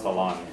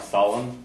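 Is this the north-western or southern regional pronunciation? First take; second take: southern; north-western. First: It uses the southern regional pronunciation. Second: It uses the western and northern regional pronunciation. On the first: "in the south it's solon" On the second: "in the west and north it's more solon"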